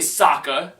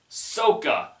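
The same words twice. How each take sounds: First: The name is said with the show's vowels. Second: The name is said with the movie's changed vowels. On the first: The speaker calls it right. "it's clearly Sokka" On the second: The speaker calls it wrong. "he mispronounced the names"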